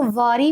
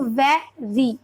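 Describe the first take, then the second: First: वरी with a va sound in place of ve; mispronounced. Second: वे री, with an e sound, in two slow syllables; corrected pronunciation. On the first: Retold or imitated. Teacher quoting a child's misreading, वरी for very. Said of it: "like इसको वरी पढ़ता है". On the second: Shown as a demonstration. Teacher correcting a child's misreading, वे री slowly split. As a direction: sound out वे, then री, separately. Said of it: "ई की sound ए होती है".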